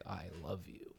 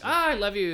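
First: It is said earnestly and seriously. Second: It is said lightly and casually.

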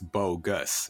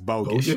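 First: The word ends with an 'us' sound. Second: The word ends with an 'ish' sound. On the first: This is the standard pronunciation. "the word is bogus" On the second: This is the local childhood pronunciation. "That's how we pronounced it"

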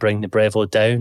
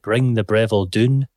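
First: The last word has the vowel of 'town'. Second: The last word has the vowel of 'moon'. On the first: "instead of saying" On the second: "I said"

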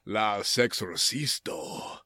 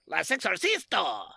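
First: It is said in a sexy, sultry voice. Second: It is said like Beavis and Butthead.

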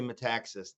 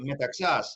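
First: The name is said with an American pronunciation. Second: The name is said with a Greek pronunciation. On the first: This is how Americans say the name. "we're Americans, so we say Metaxas" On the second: This is how Greeks say the name. "the Greeks say Metaxas"

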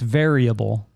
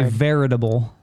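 First: The word has no t sound, like variable. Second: The word has a t sound, like veritable. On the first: The speaker calls it right. "It's variable" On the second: The speaker calls it wrong. "You say veritable"

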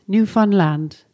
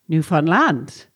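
First: It is said the way outsiders say it. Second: It is said the way locals say it.

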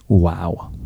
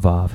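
First: The word begins with a w sound. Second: The word begins with a v sound. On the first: The speaker calls it right. "My Hebrew professor told me to pronounce it, wow" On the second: The speaker calls it wrong. "Not Vav"

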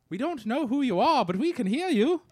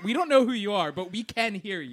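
First: It is said in an imitated Beatles British accent. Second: It is said in his plain American accent.

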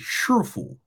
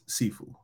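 First: The word begins with an sh sound. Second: The word begins with a plain s sound. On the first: This is the Mandarin form of the term. "In Mandarin, in mainland China, they say Shifu" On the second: This is the Cantonese form of the term. "Cantonese says Sifu"

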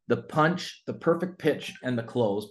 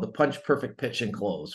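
First: It is said slowly, in three parts. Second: It is said quickly, run together.

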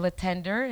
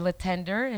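First: The name is pronounced with an English accent. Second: The same.

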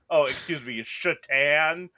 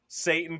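First: The word starts with an 'sh' sound. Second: The word starts with a plain 's' sound.

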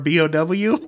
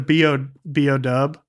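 First: The final letter is said in full as 'double-u'. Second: The final letter is shortened to 'dub'. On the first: The speaker calls it wrong. "You can't be like" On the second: The speaker calls it right. "you have to say it that way"

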